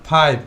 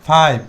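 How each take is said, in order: Both takes have the same delivery.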